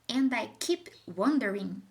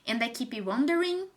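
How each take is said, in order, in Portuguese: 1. A fala é expressiva, com emoção. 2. A fala é neutra, sem emoção.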